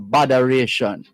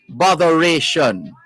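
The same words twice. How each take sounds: First: It is said in a Jamaican accent. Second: It is said in a standard accent.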